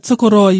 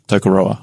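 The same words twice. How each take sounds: First: Tokoroa with the R rolled lightly. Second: Tokoroa with a plain English r. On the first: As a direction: say Tokoroa with a slight trilled r. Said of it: "you roll your R a little bit". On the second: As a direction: say Tokoroa with a flat untrilled r. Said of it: "I'm probably saying it wrong". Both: Shown as a demonstration.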